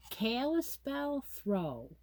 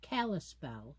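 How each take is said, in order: First: "Kalispell" said slowly and higher, KA-lis-pell, each syllable tried out; trying out a name. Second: "Kalispell" said lower and softer as the final version, KAL-is-pell; settled pronunciation. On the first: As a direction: sound out "Kalispell" carefully, like reading a new name. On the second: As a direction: settle on "Kalispell" with quiet confidence. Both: Shown as a demonstration. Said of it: "yes, I'm gonna say it that way".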